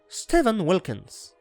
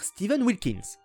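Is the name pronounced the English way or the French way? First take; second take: English; French. First: The name is pronounced with English sounds. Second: The name is pronounced with French sounds. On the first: This is how dubbers in Quebec say it. "Au Québec, on va dire ... hyper respectueux de la prononciation anglaise" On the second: This is how dubbers in France say it. "en France on va dire"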